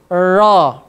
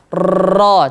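First: The r is not trilled, like a lisp. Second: The r is trilled long and hard. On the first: "tidak boleh cadel" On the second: "dia tidak boleh dibaca takrirnya berlebihan, getarannya berlebihan"

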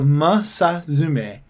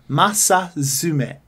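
First: The first syllable is said as mu. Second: The first syllable is said as ma. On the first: The speaker calls it wrong. "He's put Masazume, ... Not mu" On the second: The speaker calls it right. "but it would be Masazume. Ma"

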